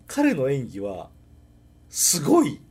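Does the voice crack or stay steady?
cracks. The voice cracks into a higher register.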